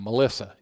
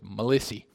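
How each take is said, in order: First: The name ends in an 'uh' sound. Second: The name ends in an 'ee' sound. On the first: "you didn't pronounce that name Melissa" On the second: "It was Melissy"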